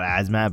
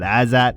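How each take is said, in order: First: The name has an m sound in the middle. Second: The name has no m sound in the middle. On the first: The speaker calls it wrong. "not Azmat" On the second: The speaker calls it right. "I think is how you say it"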